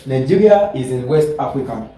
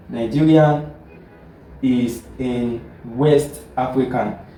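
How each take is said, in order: First: Said in the usual way. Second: Slow, spaced out for note-taking; careful dictation pace. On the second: Shown as a demonstration. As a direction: say it slowly so students can write. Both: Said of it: "Now let us look at another example".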